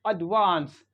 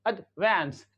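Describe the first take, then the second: First: It has a long British vowel, like father. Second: It has an American vowel, like cat.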